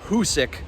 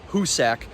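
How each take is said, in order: First: The last syllable sounds like 'sick'. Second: The last syllable sounds like 'sack'. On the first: The speaker calls it right. "It's pronounced Hoosic" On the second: The speaker calls it wrong. "not Hoosac"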